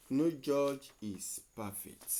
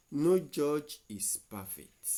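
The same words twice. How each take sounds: The two takes are said the same way.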